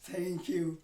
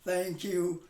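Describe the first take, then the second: The two takes are said the same way.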